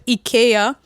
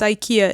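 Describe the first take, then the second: First: The name is said the Bulgarian way. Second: The name is said the English way. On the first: "In Bulgaria, we actually call it IKEA" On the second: "It's IKEA in English"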